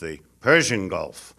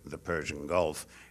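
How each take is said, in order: First: Persian is said with strong, heavy emphasis. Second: Persian is said plainly, without extra emphasis. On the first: "to accentuate uh, that aspect of it" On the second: "I've never heard an Iranian say the"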